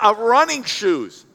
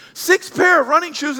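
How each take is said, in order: First: Said in the usual way. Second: Higher, punched repeat of "Six pair of running shoes"; "pair" stressed, rising in disbelief; emphatic repeat. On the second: Real, not acted. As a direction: hit "Six pair" hard and high. Repeats stat louder.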